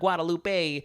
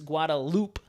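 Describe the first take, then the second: First: The ending does not sound like loop. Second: The ending sounds like the word loop. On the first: The speaker calls it wrong. "I know it's not Guadalupe" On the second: The speaker calls it right. "it's Guadalupe, Fruit Loop"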